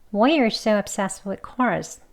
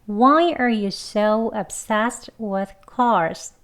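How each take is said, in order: First: The sentence is spoken fast with reduced, linked words. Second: The sentence is spoken slowly with every sound released. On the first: "다음 빨리 해볼 건데요" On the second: "두 번 천천히 해볼게요"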